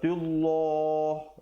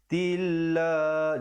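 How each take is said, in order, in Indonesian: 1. Bunyi L itu tebal dan berat. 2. Bunyi L itu tipis dan ringan. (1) "Jangan baca pula tullah" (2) "baca nipis"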